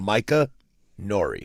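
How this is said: There is a pause between the two names.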